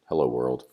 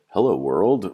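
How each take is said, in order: First: It is said flat and plain. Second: It is said as a confused question. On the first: It is a plain statement. "it's, you know, plain, it's bland" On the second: The speaker is unsure why this is happening. "Like I'm confused why we're doing this"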